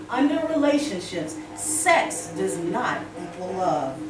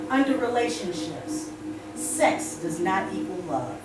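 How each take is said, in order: Both takes have the same delivery.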